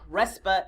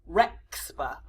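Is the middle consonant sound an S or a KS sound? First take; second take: S; KS. First: The middle consonant is a plain S sound. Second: The middle consonant is a KS sound.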